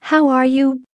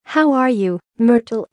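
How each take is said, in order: First: Contained booming hello in a storyteller's voice; roar. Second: Lightly forced cheery greeting; mildly over-bright, pitched up a little; falsely bright. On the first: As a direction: greet with a mild, high-pitched roar. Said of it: "he roared". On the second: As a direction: greet with a touch of fake cheer. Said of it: "in a falsely bright voice". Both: A narrator's reading.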